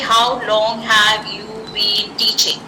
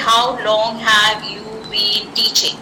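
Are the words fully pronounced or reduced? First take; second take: full; full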